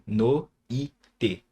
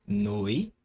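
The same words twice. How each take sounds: First: "No, i, te" in three separate pieces; wrong syllable split. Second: "noite" in two pieces, noi then te; correct syllable split. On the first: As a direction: break the diphthong apart: "No", "i", "te". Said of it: "eu não separo aqui". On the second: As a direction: keep noi together in "noite", pause before te. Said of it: "Não, é noite". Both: Shown as a demonstration.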